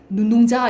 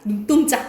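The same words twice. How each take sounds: First: The second syllable starts with a plain consonant. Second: The second syllable starts with a tense consonant. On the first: The speaker calls it wrong. "이렇게 안 하잖아" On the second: The speaker calls it right. "된 소리 나죠? ... 이렇게 되지"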